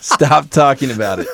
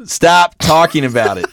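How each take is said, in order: First: "Stop" said through a laugh. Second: Exasperated. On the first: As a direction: plead "Stop talking about it" while laughing. Repeats while laughing. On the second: Begging co-host to stop. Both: Real, not acted.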